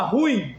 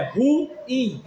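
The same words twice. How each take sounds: First: "ruim" run together as RÚIM, stress on the u; one-syllable colloquial ruim. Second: "ruim" with a full stressed i, ru-ÍM; two-syllable ruim. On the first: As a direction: glide "ruim" into a single syllable. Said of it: "quem gosta de falar ruim". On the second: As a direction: split "ruim" into ru and ím. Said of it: "não é uma semivogal". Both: Shown as a demonstration.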